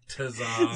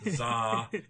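First: The name starts with a T sound. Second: The name starts without a T sound.

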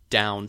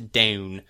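First: The vowel sounds soft and gentle. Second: The vowel sounds harsher and shifted. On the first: "or down to down" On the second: "they have slightly harsher sounds on certain vowels"

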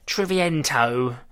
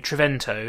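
First: The name is said with an exaggerated foreign accent. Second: The name is said plainly, without a put-on accent. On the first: "I'm trying to put more of an accent on it" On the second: "Triviento is what I'm going to say"

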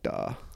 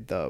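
First: The word begins with a hard 'd' sound. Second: The word begins with a soft 'th' sound. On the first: "we say like da" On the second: "we don't say the"

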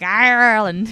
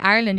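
First: Said in an imitated American accent with a strong r. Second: Said in the speaker's own Irish accent.

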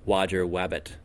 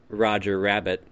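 First: The R sounds are replaced by W sounds. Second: The R sounds are pronounced as normal R. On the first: "instead it sounded like Wodger Wabbit" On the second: "the individual who said Roger Rabbit"

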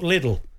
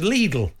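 First: The name is said the British way. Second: The name is said the Irish way. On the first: This is how it is said at home. "not Lidl" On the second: This is how it is said in Ireland. "Over there it's Lidl"

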